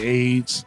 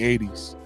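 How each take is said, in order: First: The name is said as one syllable, aids. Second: The name is said like the word eighties. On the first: The speaker calls it wrong. "if somebody being funny, they say AIDS" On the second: The speaker calls it right. "anybody who know me and call me eighties"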